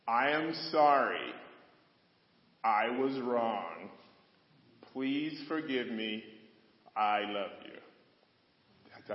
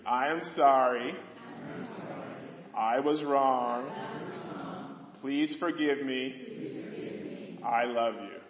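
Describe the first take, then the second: First: Each phrase spoken slowly with long pauses; slow, deliberate formula. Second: Louder, slow, leading the congregation; louder call to repeat. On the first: Pastor teaching couples the phrase, slow deliberate delivery. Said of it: "statements go like this". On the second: Pastor leading congregation to repeat, louder slow call. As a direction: lead them through it louder, like a call-and-response. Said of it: "repeat that after me". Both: Shown as a demonstration.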